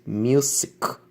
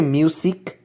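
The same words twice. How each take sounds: First: "music" said slowly as "myoo-zik" with a y glide; slow, careful "myoo-zik" for "music"; correct music. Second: Music said as "moosik", no y sound before the u; "music" with a plain "oo" and no glide; the common mistake, "moosik"; wrong music. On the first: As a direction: stretch out "music" with a clear "myoo". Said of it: "Es music". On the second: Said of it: "está mal porque no existe una I". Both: Shown as a demonstration.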